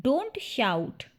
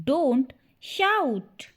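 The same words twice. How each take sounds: First: Said in the usual way. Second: Word by word. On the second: Shown as a demonstration. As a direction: split "Don't shout" into two separate words. Word-by-word repeat for learners. ("Don't shout" रुक-रुककर, शब्द अलग-अलग)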